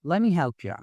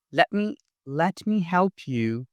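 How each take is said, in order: First: "let me help ya" blended as "lemme help ya"; quick linked "lemme help ya"; reduced casual form. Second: "let me help you" with a full "you"; careful full form. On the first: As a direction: run "let me" together, ending on "ya". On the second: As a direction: pronounce "let me" as two separate words. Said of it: "Instead of". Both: Shown as a demonstration.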